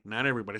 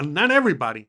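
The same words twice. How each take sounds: First: Quiet aside. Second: Said in the usual way. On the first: Real, not acted. Repeated correction, lower and softer.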